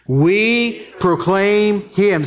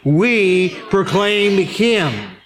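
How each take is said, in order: First: It is said in a plain, calm way. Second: It is said with strong, emphatic conviction. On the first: "Say that with me" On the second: "Say it again like you mean it"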